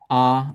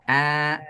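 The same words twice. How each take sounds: First: The vowel is made at the back. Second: The vowel is made low at the front. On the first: The speaker calls it wrong. "wanting to go in the back of the mouth" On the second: The speaker calls it right. "low in the front"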